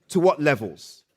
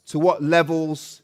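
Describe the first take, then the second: No difference in how they are said.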